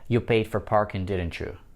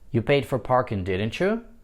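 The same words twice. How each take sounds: First: The voice falls on the tag at the end. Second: The voice rises on the tag at the end. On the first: The speaker expects agreement, not an answer. "нисходящий тон" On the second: The speaker does not know and is really asking. "с другой интонацией, как будто я не знаю"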